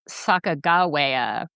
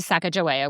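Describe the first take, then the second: First: The consonant before -awea is a G sound. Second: The consonant before -awea is a J sound. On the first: It follows another version of her history. "Sacagawea with a G instead of a J" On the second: It follows the Northern Shoshone version of her history. "the Northern Shoshone say Sacagawea with a J"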